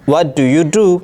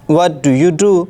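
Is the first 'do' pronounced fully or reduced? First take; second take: fully; fully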